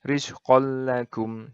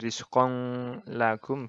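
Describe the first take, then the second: First: The n sound merges into a doubled l. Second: The n sound is kept before the l. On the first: The speaker calls it right. "Jadi langsung masuk ke lam ini" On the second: The speaker calls it wrong. "bukan rizqong lagum gitu, bukan"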